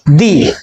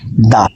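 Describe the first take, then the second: First: The vowel is long and full, like 'dee'. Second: The vowel is short and reduced, like 'duh'. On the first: The noun is singled out as that specific one. "इसका उच्चारण निश्चित करने के लिए यहां पर मैंने क्या बोल दिया? दी" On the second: The next word starts with a consonant. "तब हमें इसको क्या बोलना चाहिए? द"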